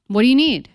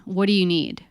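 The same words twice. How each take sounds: First: Higher and louder repeat of What do you need; louder pressing repeat. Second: Said in the usual way. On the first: Shown as a demonstration. Pressing angry dad louder for an answer. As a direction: push the question harder, louder.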